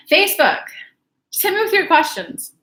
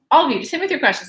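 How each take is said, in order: First: High, louder call to the audience; upbeat host call-out. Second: Said in the usual way. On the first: Real, not acted. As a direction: summon the Facebook viewers. Calling out to viewers.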